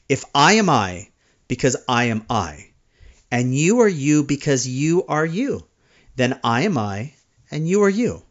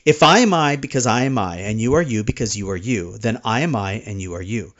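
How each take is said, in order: First: It is said more slowly than normal. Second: It is said at a normal, faster pace.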